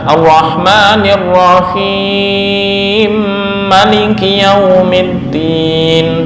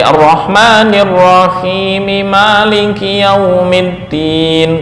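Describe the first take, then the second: First: The two m sounds merge into one doubled m. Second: The two m sounds are pronounced separately.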